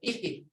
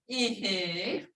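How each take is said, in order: First: The word is short and blunt. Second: The word is drawn out, not blunt. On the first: It means husband. "short and blunt" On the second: It means yes. "when you get to this, yes, you go ihi"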